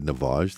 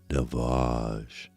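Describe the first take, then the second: First: The word is said in a plain, ordinary voice. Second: The word is said in a grand, elevated voice.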